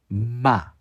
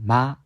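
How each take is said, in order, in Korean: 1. 이 음절은 콧소리가 강하고 뚜렷하게 나요. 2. 이 음절은 콧소리가 약하게만 나요. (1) "콧소리가 좀 강하게 나면서 ... 마, 마 이렇게 조금 강조를 하시면은" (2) "그냥 마 하는 게 아니라"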